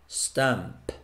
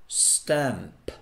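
No difference in how they are said.

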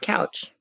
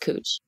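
First: The vowel sounds like the one in 'cow'. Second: The vowel sounds like the one in 'coo'. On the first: It is said the way it is spelled. "And so we should pronounce it couch" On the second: It is said the way locals say it. "But it's cooch, which just sounds sexual"

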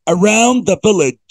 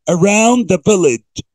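The two takes are said the same way.

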